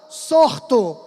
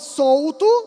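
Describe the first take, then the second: First: An R sound comes before the 't'. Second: An L sound comes before the 't'. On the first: "o L virou o quê? R" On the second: "Para pronunciar solto"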